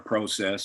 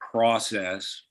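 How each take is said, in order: First: The word has a Canadian pronunciation. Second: The word has an American pronunciation.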